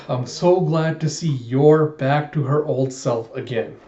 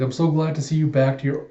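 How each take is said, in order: First: Put-on slow, deliberate "Yor back to her old self"; careful retake. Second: Said in the usual way. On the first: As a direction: set out "Yor" and each word slowly, correcting a stumble. Corrected retake after stumbling twice.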